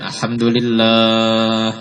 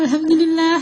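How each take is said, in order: First: It is said in a loud, manly voice. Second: It is said in a silly, affected voice.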